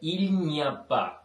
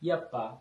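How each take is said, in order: First: The phrase keeps its opening syllable. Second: The opening syllable is dropped. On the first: "இல்ஞப்பா என்றதை" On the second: "அதை சுருக்கி யப்பா என்று சொல்லுவோம்"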